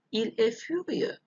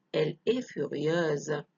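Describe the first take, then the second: First: Furieux ending on an open eu vowel; masculine ending. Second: Slow furieuse with a voiced z at the end; feminine ending. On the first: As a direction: leave the x of furieux silent. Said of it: "الفيمينا". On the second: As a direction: draw out furieuse into a buzzing final z. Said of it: "تغيرت X in S". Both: Shown as a demonstration.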